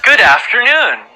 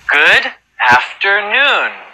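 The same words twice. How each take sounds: First: It is said at a very fast pace. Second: It is said at a fast pace.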